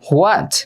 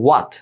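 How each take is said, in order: First: It begins with an h followed by a w. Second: It begins with a w and no h. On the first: The speaker calls it wrong. "হট না হোয়াটও না, দুইটাই ভুল" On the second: The speaker calls it right. "সঠিক উচ্চারণ হচ্ছে ওয়াট"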